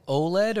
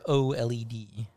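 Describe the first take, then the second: First: "oled" as one word, oh-led; "oled" run together as oh-led. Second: "O L E D" letter by letter; each letter of "O L E D" named separately; spelled out. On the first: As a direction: pronounce "oled" like a word, not letters. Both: Shown as a demonstration. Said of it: "Is it oled or O L E D?".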